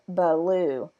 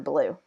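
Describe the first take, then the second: First: An extra uh vowel separates the b and l. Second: The b and l are joined without a vowel. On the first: This is how a young child says it. The speaker calls it wrong. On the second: This is the intended adult word. The speaker calls it right.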